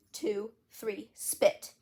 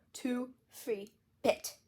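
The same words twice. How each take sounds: First: Said in the usual way. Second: Counting through a mouthful of toothpaste; mouth full. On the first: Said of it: "Only my mouth was so full". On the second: Acted. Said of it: "my mouth was so full it sounded like".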